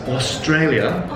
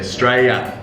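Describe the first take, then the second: First: It is said in a full British accent. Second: It is said in a clipped Australian accent. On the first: "We don't say it as the British say it" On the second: "we abbreviate it and we say"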